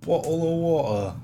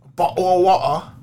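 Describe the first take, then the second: First: Slower, pitched-up British accent. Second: Loud, high caricature British accent. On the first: Copying the friend's British bit, slow British accent. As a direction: echo it in a drawn-out British accent. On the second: Showing off his British, loud exaggerated British accent. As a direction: belt it in a broad British accent. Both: Shown as a demonstration. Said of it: "I can easily do British".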